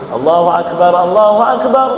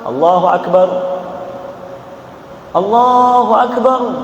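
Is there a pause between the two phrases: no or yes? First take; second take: no; yes. First: Both phrases run together in one breath. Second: A breath pause separates the two phrases. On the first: The speaker calls it right. "Dua takbir satu napas. Tidak boleh diputus" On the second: The speaker calls it wrong. "Yang azan yang kurang bagus"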